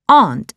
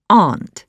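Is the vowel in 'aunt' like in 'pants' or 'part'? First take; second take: part; part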